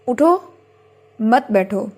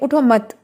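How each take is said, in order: First: There is a pause after the first word. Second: There is a pause after the second word. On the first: Get up, do not sit. "अगर आप उठो पे रुक जाएं" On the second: Do not get up, sit down. "मत पे रुकते हैं"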